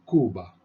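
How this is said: It is said with a Spanish pronunciation. The speaker calls it right. "We say Cuba"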